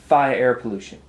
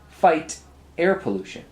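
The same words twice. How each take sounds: First: The final T of fight is dropped. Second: The final T of fight is clearly pronounced. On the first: The speaker calls it wrong. "You're going" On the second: The speaker calls it right. "Back to those T's again"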